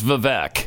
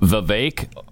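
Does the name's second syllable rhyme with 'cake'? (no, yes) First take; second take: no; yes. First: The second syllable does not rhyme with cake. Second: The second syllable rhymes with cake. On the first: "Everybody says Vivek" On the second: "Vivek like cake"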